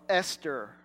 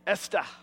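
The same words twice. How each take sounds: First: It is said in a non-Australian accent. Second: It is said in an Australian accent.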